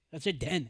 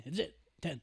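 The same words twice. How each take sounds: First: Louder, insistent; emphatic. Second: Said in the usual way. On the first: Real, not acted. Firm to friends about the league size, louder. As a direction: put your foot down on ten.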